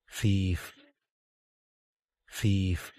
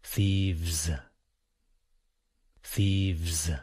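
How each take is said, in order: First: "Thief" ending in a crisp, voiceless f; voiceless ending demo. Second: Low "Thieves" with a buzzing vz ending; voiced ending demo. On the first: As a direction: model "Thief" evenly with an unvoiced final f. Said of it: "the last sound in thief". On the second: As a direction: model "Thieves" evenly, voice on through the final vz. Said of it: "Now we will do thieves". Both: Shown as a demonstration.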